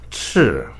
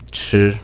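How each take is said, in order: First: The pitch falls sharply from high to low. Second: The pitch stays high, level and long. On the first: It means red. "It's sharp and strong. You could go all the way down to the bottom" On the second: It means to eat. "The first tone is high and level. You could try to pronounce it stable and long"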